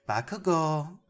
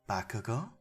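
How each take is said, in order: First: The name is said with more energy. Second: The name is said gently and softly.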